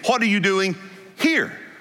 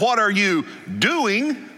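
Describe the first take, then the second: First: The stress is on here. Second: The stress is on doing.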